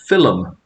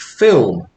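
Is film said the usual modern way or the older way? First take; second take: older; modern. First: It is said in the older, regional way. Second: It is said in the usual modern way.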